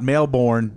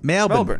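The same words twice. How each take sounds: First: The second syllable is a full 'born'. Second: The second syllable is reduced to a weak vowel. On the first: The speaker calls it wrong. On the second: The speaker calls it right.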